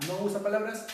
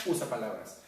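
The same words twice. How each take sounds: First: "No" stressed higher and louder. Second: Said in the usual way. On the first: Shown as a demonstration. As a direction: lean on the "No" in "No usa palabras".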